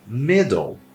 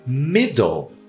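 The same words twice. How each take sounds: Both takes have the same delivery.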